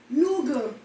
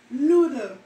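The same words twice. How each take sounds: First: "Noodle" said as nuga, g for d; Jamaican pronunciation. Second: Said in the usual way. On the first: Shown as a demonstration. Showing viewers the Jamaican "Noodle", nuga.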